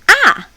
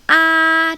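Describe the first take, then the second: First: The pitch drops sharply like a command. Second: The pitch stays high and level. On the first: "You're ordering somebody to do something. Or think about when you're angry" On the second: "The tone one is ah, it's like opera. just keep it there, very high"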